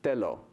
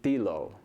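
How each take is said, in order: First: The first vowel is an 'eh' sound. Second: The first vowel is an 'ee' sound. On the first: The speaker calls it right. "based on my very regular romanization" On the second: The speaker calls it wrong. "An E pronounced the way like it is in English?"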